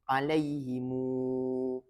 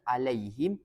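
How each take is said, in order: First: The final m is followed by a long u. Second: The word ends on a closed m sound. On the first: "yang kedua silah" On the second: "yang pertama sukun"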